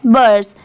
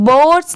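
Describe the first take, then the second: First: बर्ड्स with a short central "ur" vowel; correct pronunciation. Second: बोर्ड्स with a long round "o"; wrong pronunciation. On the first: Teacher reading out the spelled word, correct pronunciation. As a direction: say बर्ड्स like English "burs", no "o". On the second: Teacher warning learners off a misreading, wrong pronunciation. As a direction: say बोर्ड्स like "boards". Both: Shown as a demonstration. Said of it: "इसकी sound बोर्ड्स नहीं आएगा".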